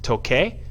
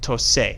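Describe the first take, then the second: First: The middle consonant is a K sound. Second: The middle consonant is an S sound. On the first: The speaker calls it wrong. "Is it pronounced toque? No" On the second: The speaker calls it right. "the C in front of an E or an I is going to take a S sound"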